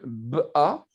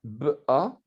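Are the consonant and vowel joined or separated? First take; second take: separated; separated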